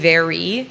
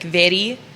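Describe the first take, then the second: First: The R is a plain, smooth R. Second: The R is a quick flipped tap. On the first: "instead of saying" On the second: "have a couple R's where we might like flip them"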